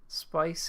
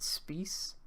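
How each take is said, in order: First: It sounds like the English word 'spice'. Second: It sounds different from the English word 'spice'.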